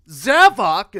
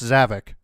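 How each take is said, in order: First: The name's ending does not rhyme with 'havoc'. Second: The name's ending rhymes with 'havoc'. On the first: This is how the game says it. The speaker calls it right. "then you hear it in Sonic Force and it's like Zavok" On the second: This is how fans assumed it was said. The speaker calls it wrong. "You'd think Zavok would be pronounced Zavik"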